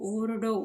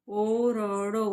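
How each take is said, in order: First: Said in the usual way. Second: ओरडो stretched out very slowly, syllable by syllable; slow blended reading. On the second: Shown as a demonstration. Teacher reading ओरडो to student, very slow and drawn out. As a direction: draw out ओरडो slowly like reading it aloud for a child. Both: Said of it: "ऐसे आपको याद करना है".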